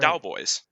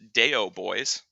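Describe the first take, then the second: First: The first part sounds like 'dow', one syllable. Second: The first part sounds like 'day-oh', two syllables. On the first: The speaker calls it right. "It's Callous Dow Boys" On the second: The speaker calls it wrong. "You don't pronounce it Deo Boys"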